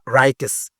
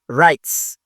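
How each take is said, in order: First: The ending is said as an extra syllable. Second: The ending is said with no extra syllable. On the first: The speaker calls it wrong. "C'est pas writers" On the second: The speaker calls it right. "Ça, c'est un peu muet ici. On n'entend pas le son"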